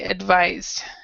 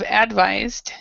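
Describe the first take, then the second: First: The stress is on the last syllable. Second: The stress is on the first syllable. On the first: The speaker calls it right. "the stress is in this last par, last part of the word" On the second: The speaker calls it wrong. "instead of advised"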